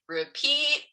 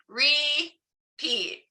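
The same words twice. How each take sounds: First: "repeat," pitched high and hit firmly; stressed repeat. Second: "repeat." high with a falling, whiny plea; stressed repeat. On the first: Author to her class, saying "repeat," high and pressed. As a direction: lift "repeat," up like a plea. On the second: Author leading the kids in a pleading, high "repeat.". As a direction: stretch "repeat." high then let it drop. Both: Shown as a demonstration. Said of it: "say it with me".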